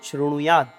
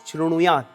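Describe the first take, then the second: Both takes have the same delivery.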